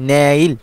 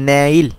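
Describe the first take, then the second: Both takes have the same delivery.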